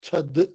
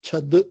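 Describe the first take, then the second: Both takes have the same delivery.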